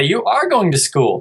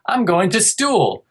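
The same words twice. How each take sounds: First: Higher, coaxing "school" with a clear K; patient parent modelling the word; gentle correction. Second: Put-on high, slow childlike "stool"; a light kid voice, slow and higher; imitating his kid. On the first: Shown as a demonstration. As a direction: say "school" back with a clean K sound. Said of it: "but I'd say". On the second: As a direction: voice the little boy saying "stool" for "school". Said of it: "if he said".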